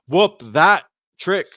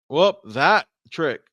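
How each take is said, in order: First: There is a pause before trick. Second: The same.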